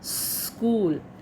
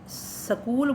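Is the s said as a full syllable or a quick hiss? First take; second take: quick hiss; full syllable. First: The s is a quick hiss joined to k. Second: The s is said as a full syllable. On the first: The speaker calls it right. "उसको जल्दी बोलना है। जैसे सांप के फन फंकारने की जो आवाज़" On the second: The speaker calls it wrong. "ये गलत है। स पूरा है ही नहीं यहाँ पे"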